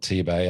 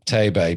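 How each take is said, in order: First: T-Bay, first part rhyming with "see"; spelt-out T-Bay. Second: Tay-Bay, first part rhyming with "day"; pronounced TAY-bay. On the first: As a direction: say T-Bay with the letter T, "tee". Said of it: "but it's spelt T-Bay". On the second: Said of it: "but it's pronounced". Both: Shown as a demonstration.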